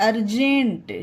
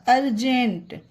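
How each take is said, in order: The two takes are said the same way.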